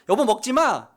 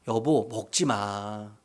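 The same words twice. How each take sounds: First: It is said curtly and firmly. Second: It is said sweetly and gently.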